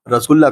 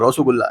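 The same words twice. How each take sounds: First: The vowels are plain standard Hindi vowels. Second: The vowels are rounded 'o'-like sounds.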